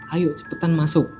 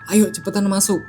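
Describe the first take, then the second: First: It is said quietly, almost hushed. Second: It is said at normal volume.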